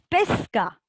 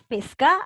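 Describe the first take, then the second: First: The stress is on the first syllable. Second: The stress is on the last syllable. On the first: The speaker calls it right. "Tú dices pesca, ¿no? La fuerza de voz está en pez" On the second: The speaker calls it wrong. "Si tú dijeras pesca, ahí sería aguda"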